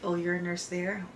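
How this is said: It sounds dismayed and disapproving.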